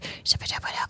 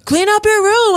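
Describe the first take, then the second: First: It is said in a creepy whisper. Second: It is said in a normal, firm voice.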